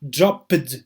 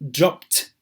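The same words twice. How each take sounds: First: The ending is an extra 'id' syllable. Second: The ending is a short 't' sound. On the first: The speaker calls it wrong. "it is not dropped, no" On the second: The speaker calls it right. "it is dropped. / this ed is pronounced as t"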